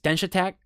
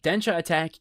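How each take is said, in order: First: The name is said very quickly, run together. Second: The name is said at an ordinary, unhurried pace.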